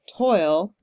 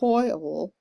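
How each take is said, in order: First: The word is said as one syllable. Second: The word is stretched into two syllables. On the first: "Or you could do it as one syllable" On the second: "which is kind of a two syllable word the way I'm pronouncing it"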